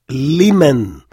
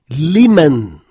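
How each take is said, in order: No difference in how they are said.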